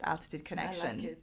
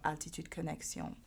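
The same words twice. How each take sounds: First: The name is said with an English accent. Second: The name is said with a French accent.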